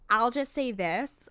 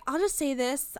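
First: Put-on slow Chicago accent with flat vowels. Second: Said in the usual way. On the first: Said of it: "thickest Chicago accent".

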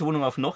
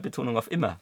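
First: "noch" given the weight at the end; stress on noch. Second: "immer" given the weight at the end; stress on immer. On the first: Host rejects his colleague's emphasis, stress on "noch". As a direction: lean on the word "noch". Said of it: "Nicht, nicht Betonung auf noch". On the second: Host corrects which word carries the emphasis, stress on "immer". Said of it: "sondern Betonung auf immer". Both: Shown as a demonstration.

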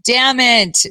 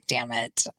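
First: "Damn it." again, louder and higher; louder, exasperated damn it; frustrated curse. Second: A quiet, deflated damn it; low, quiet retold curse; muttered curse. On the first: Retold or imitated. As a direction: punch "Damn it." out with retold frustration. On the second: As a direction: say "Damn it." under your breath, much softer. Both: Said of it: "And I was just like".

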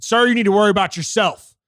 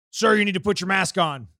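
First: Loud, firm comeback, staring him down; defiant retort. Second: Mock stern enforcer. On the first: Retold or imitated. Telling off the older man who demanded he mask up, loud and defiant. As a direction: shoot it back hard and flat. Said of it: "I looked at him dead in the fucking eyes". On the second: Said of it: "he's beelining at me".

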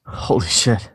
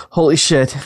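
First: Said in the usual way. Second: Second take punched louder. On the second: Shown as a demonstration. Asked to say it twice, second time louder. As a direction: hit it harder the second time. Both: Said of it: "you have to say "holy shit" twice".

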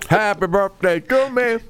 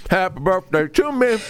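First: High, slow singing with a full mouth; sung birthday tune. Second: High singing, a bit quicker; sung birthday tune. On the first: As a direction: sing it to yourself, mouth full. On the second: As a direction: keep singing, mouth still full. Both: Real, not acted. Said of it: "I got cake in my mouth".

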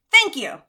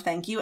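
First: "Thank you" lifted high and louder; a bright eager "Thank you". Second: "thank you" softer and lower, barely out; a small shy "thank you". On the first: Demonstrating accepting a compliment, bright and louder. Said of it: "what do you say when someone compliments you". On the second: Someone new to compliments, small shy thank you. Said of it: "you might not have a lot to say". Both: Shown as a demonstration.

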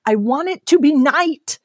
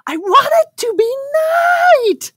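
First: Put-on higher-pitched upset child demanding; imitated child screaming. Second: Put-on very high, loud screech of a tantruming child; imitated full-blown child scream. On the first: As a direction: mimic a kid's screamed demand, first round. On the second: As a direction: mimic the tantrum at its peak, screeching. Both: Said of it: "screaming in my face".

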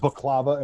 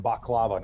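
First: Baklava with KLA stressed; stress on second syllable. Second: Baklava with BAK stressed; stress on first syllable. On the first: Friend questioning two similar words, baklava stressed in the middle. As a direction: say baklava as bak-LA-va, weight in the middle. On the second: Friend questioning two similar words, baklava stressed up front. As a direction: say baklava as BAHK-la-va, weight up front. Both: Shown as a demonstration. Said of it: "putting the different emphasis on the wrong syllable".

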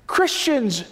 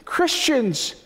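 No difference in how they are said.

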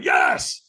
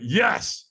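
First: High, strained mock scream of "Yes"; re-enacted high-pitched power yell; stronger yes. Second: Said in the usual way. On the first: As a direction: push "Yes" out with more force. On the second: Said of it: "Squeeze your fist and say yes".

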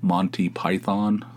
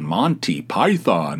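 First: Monty Python slow, American pronunciation. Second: Monty Python slowly overdone, mock American; mock the American way of saying Monty Python; exaggerated American. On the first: Shown as a demonstration. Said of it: "the way people in America say Monty Python". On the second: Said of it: "he, like, wildly exaggerated".

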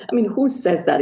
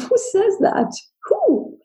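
First: Said in the usual way. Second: Stunned disbelief. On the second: Retold or imitated. Thinking to herself after the mailman's remark, high stunned disbelief. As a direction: pitch flies high in shocked disbelief.

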